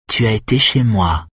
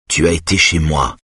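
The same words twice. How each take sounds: First: Higher, mocking throw-back; retorting mimicry. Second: Said in the usual way. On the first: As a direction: throw his words back at him. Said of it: "rétorqua-t-elle".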